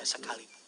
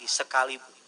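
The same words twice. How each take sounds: First: Said in the usual way. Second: "Sekalipun" said again, much louder and fuller; louder repeat. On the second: Shown as a demonstration. Pastor urging the congregation to say it louder. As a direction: raise it, bigger this time. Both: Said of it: "Lebih besar lagi".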